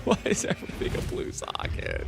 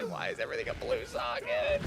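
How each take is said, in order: First: Low groaning whisper; long-suffering. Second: High strained whine; long-suffering. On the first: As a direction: growl it out, defeated. Repeat in other voice. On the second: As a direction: squeak out the despair. Despair over blue sockets. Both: Pretend.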